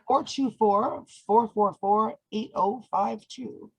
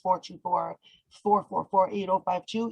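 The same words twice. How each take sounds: First: The number is read out slowly. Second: The number is read out quickly. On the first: "Say it slower, slower" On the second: "you said that fast"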